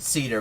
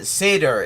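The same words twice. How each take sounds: First: It is said the way the surname is pronounced. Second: It is said with the Hebrew and Yiddish pronunciation. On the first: This is how the person says his own name. "he pronounces it Seder" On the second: This is the word for the ritual Passover meal. "but in Hebrew and Yiddish, uh, Seder"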